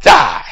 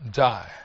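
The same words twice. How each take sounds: First: Loud, forceful single word; emphatic answer. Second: Low, softer grave repeat; grave echo. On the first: Preacher completing the verse for congregation, emphatic and loud. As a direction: hit the word hard after a pause. Answers own question loudly. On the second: Preacher repeating the verse's word to congregation, grave and low. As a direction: let it drop low and soft. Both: Real, not acted.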